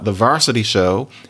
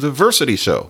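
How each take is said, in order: First: The first vowel sounds like 'ar'. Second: The first vowel sounds like 'er'. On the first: This is the usual form. The speaker calls it right. "talking about the varsity show" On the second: This is the form people avoid. The speaker calls it wrong. "which we don't quite want"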